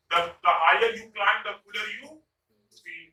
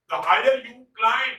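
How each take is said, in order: First: Slow, even read of the sentence; slow example. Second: Slow, louder climb on higher; slow stressed example. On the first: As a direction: read the whole saying slowly. (धीमे से पूरा वाक्य) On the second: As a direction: draw out the higher you climb. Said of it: "H I जी H E R". (धीमे से, higher पर ज़ोर) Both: Shown as a demonstration.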